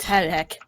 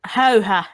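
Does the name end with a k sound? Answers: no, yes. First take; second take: yes; no. First: The name ends with a k sound. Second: The name ends in a vowel, no k. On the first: The speaker calls it wrong. "not Häyhäk" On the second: The speaker calls it right. "it's pronounced um, Häyhä"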